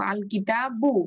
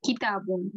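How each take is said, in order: First: আল কিতাবু ending on "-bu", no n; single short-vowel ending. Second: কিতাবুন, ending on a clear "-un"; full -un ending. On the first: Teacher gives one pesh after alif-lam, n dropped. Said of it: "তাহলে আমি এক পেজ দিব". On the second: Teacher recalls the form normally learned, full -un ending. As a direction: say কিতাবুন with the final n sounded. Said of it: "আমরা যে normally শিখে আসছি". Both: Shown as a demonstration.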